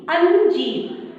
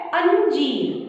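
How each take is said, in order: First: Slow drawn-out word. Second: Said in the usual way. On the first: Shown as a demonstration. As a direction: say अंजीर very slowly, stretching the अं. (अंजीर को बहुत धीरे, खींचकर बोलें) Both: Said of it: "जब मैंने अंजीर शब्द बोला".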